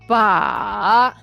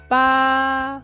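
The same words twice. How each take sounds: First: The pitch dips low, then rises high. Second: The pitch stays high and level. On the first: It means handle. "The third tone, low to the bottom, then up to high" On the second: It means eight. "The first tone high and flat"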